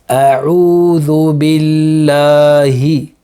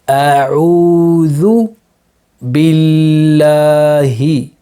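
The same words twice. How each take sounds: First: It is recited at a faster pace. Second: It is recited at a slower pace.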